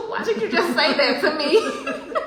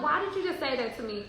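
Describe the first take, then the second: First: Loud, high, slow cry through laughter; retold astonishment. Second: Said in the usual way. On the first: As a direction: drag it out high, laughing in disbelief. Retelling her stunned reaction to stranger.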